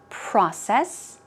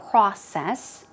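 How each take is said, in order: First: It is said with an American accent. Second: The same.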